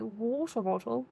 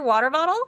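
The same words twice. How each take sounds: First: It is said in a British accent. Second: It is said in an American accent. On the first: The speaker calls it right. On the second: The speaker calls it wrong. "that didn't sound right"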